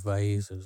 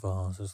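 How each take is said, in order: First: It is said with an American pronunciation. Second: It is said with a British pronunciation.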